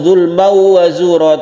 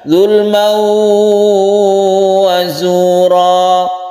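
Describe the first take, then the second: First: The nasal sound passes straight into 'wa' without holding. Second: The nasal sound is held before 'wa'. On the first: The speaker calls it wrong. "jangan langsung" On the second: The speaker calls it right. "tapi ditahan"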